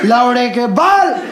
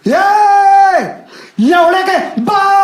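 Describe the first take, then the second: First: Raised, slow retelling of the insult; retold insult. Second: High, loud, drawn-out abusive yell; young scooter rider yells an insult at the taxi, long shout; scooter rider's shout. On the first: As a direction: repeat the insult with comic emphasis. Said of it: "उधर से आदमी कहे". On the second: Retold or imitated. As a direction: scream the insult while zooming past. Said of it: "और क्या गाली दिया".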